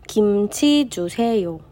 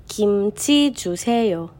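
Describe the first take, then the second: No difference in how they are said.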